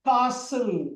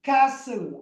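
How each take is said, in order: First: It has a long open 'ah' vowel. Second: It has a flat front 'a' vowel. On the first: "UK காரங்க வந்து காசல்" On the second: "Americans வந்து கேசல்"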